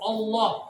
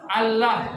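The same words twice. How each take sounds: First: The vowel is dark and thick, close to o. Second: The vowel is thin and clear, like plain a. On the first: "Tafkhim ini yang susah, karena menyebutkan Allah itu menyebutkan pakai vokal O" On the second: "Kalau yang tarkik tipis"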